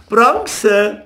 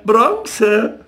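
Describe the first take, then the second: First: Much higher, nasty taunting call; spiteful jeer. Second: High jeer dropping at the end; spiteful jeer. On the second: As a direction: finish the taunt with a nasty fall. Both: A narrator's reading. Boys catching crayfish jeering at Jakob, spiteful. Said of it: "riefen sie gehässig".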